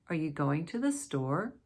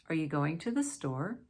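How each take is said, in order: Both takes have the same delivery.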